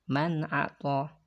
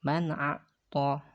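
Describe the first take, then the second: The two takes are said the same way.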